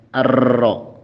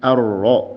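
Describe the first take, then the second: First: The r has a long, exaggerated trill. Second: The r has a light, subdued trill. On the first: The speaker calls it wrong. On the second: The speaker calls it right. "Contohnya ar-Rahman"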